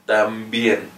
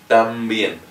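No difference in how they are said.

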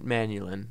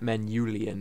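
First: The word ends in a short 'lin' sound. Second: The word ends in a longer 'lee-an' sound. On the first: This is the speaker's own preferred pronunciation. The speaker calls it right. "that's how I'd pronounce it" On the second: This is how some other people say it. The speaker calls it wrong. "not Manulian, as some people say"

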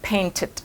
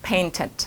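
No difference in how they are said.

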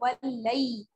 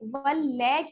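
First: The word is joined smoothly without a break. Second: The word is split into two separate parts. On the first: The speaker calls it right. "बल्कि वल्लई" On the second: The speaker calls it wrong. "वल लै की आवाज नहीं आनी चाहिए"

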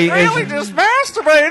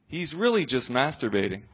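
First: It is said in an odd put-on voice. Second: It is said in the speaker's ordinary voice. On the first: "do it again in the weird voice" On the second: "Stick with the character"

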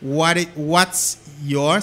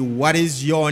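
First: What and is are contracted into one syllable. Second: What and is are said as two full words.

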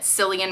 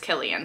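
First: The name begins with an S sound. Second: The name begins with a K sound. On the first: The speaker calls it wrong. "I have made the mistake of pronouncing it Cillian Murphy because he spells it with a C" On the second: The speaker calls it right. "but I am pretty sure it is Cillian"

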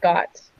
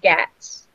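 First: The vowel sounds like the one in cot. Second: The vowel sounds like the one in cat. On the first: The speaker calls it wrong. "not Gots" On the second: The speaker calls it right. "it's Gats"

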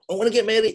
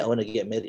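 First: It is said with strong feeling. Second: It is said flatly, without feeling. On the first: The wish moves people to help. The speaker calls it right. "People move" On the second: The wish will not move anyone to help. The speaker calls it wrong. "no one's going to help you"

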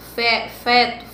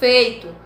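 First: The glide is dropped, leaving a plain vowel. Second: The diphthong ei is pronounced in full. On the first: The speaker calls it wrong. "eu falo feto" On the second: The speaker calls it right. "Se eu falasse feito"

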